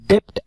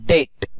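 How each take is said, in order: First: A b sound is pronounced before the t. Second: No b sound is pronounced before the t. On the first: The speaker calls it wrong. "डेप्ट असा उच्चार करायचा नाही" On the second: The speaker calls it right. "यामध्ये बी silent असतो"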